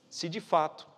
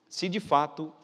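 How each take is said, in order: No difference in how they are said.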